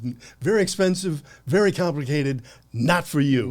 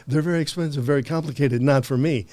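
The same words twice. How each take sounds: First: Loud, high mock Hong Kong accent; hammed-up Chinese accent, louder and higher; imitating a heavy Chinese accent. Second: Higher and louder, parroting the shopkeeper; mock echo of the salesman. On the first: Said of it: "in a, you know, a heavy accent". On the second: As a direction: throw his line back in a loud, raised mock version. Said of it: "I go, "Yeah, I have thought about 'em".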